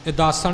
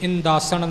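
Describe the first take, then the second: First: No nasal n sound follows the first vowel. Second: A nasal n sound follows the first vowel. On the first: The speaker calls it right. "ਇਦਾਸਣ ਹੀ ਬੋਲਣਾ ਹੈ" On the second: The speaker calls it wrong. "ਇਦਾਸਣ ਟਿੱਪੀ ਨਹੀਂ ਹੈ, ਇਸ ਲਈ ਆਪਾਂ ਇੱਥੇ ਇੰਦਾਸਣ ਨਹੀਂ ਬੋਲਣਾ"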